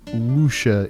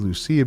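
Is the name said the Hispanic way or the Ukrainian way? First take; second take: Ukrainian; Hispanic. First: The name is said the Ukrainian way. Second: The name is said the Hispanic way. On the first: "Ukrainian pronunciation of that name"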